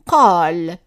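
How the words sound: The word begins with a deep q sound. This is the form that keeps the standard sound. "if we keep the same sound for the qaf"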